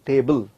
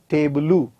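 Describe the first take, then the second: First: The word ends cleanly on the final consonant. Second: An extra vowel is added after the final consonant. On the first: The speaker calls it right. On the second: The speaker calls it wrong. "It is not tebulu"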